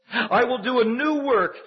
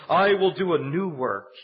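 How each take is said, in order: First: "I will do a new work" slow, higher and louder, "new" hit hard; soaring emphatic quote. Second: "I will do a new work" read slowly, weight on "I"; measured scripture delivery, "I will do a new work" held out; slow emphatic quote. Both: Shown as a demonstration. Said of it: "watch this phrase".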